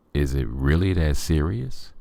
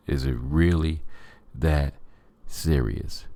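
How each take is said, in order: First: Said in the usual way. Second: "Is it really... that... serious?" with a pause before "that" and before "serious", each falling; spaced-out emphasis. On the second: Shown as a demonstration. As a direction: break "Is it really that serious?" into slow separate beats, letting "serious" drop.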